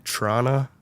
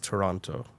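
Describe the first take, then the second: First: The word is squeezed into two short syllables. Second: The word is said with all three syllables. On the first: The speaker calls it wrong. "some people say Trana" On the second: The speaker calls it right. "and it's Toronto"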